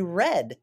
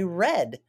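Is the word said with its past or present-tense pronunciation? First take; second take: past; past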